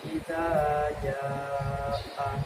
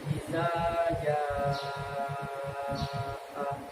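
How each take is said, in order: First: The vowel is held for only two counts. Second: The vowel is stretched out for six counts. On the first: "kalau ini kan dua harokat" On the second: "kan enam harokat ya"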